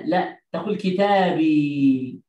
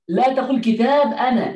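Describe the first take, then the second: First: كتابي said slowly and deliberately, lingering on the ي; slow stress on كتابي. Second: Said in the usual way. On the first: Shown as a demonstration. Teacher correcting students, slow clear كتابي. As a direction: stretch out كتابي for the class.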